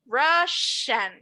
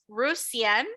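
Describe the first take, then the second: First: The middle consonant is an 'sh' sound. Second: The middle consonant is an 's' sound. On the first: The speaker calls it right. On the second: The speaker calls it wrong.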